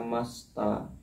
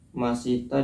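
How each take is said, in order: First: The middle i vowel is dropped. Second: The middle i vowel is pronounced.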